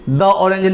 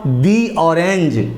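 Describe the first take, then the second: First: 'The' has a short, neutral 'thuh' vowel. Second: 'The' has a long 'thee' vowel. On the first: The speaker calls it wrong. "द orange नहीं होगा" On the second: The speaker calls it right. "दी orange होगा"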